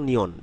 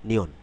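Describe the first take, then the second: The two takes are said the same way.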